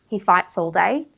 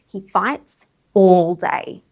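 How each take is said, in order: First: 'Fights' and 'all' are linked together smoothly. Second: 'Fights' and 'all' are separated; 'all' is stressed. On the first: It is just a regular statement. "if you're just giving a regular statement ... you can link it" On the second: It stresses how long the fighting lasts. "you would stress all, which means that you wouldn't link them, you would separate them"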